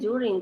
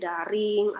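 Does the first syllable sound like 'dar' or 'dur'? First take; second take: dur; dar. First: The first syllable is said like 'dur'. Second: The first syllable is said like 'dar'. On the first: The speaker calls it right. "ini kan ya bacanya during" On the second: The speaker calls it wrong. "kalian tidak tahu kalian bacanya daring atau during, kan nggak bagus didengar"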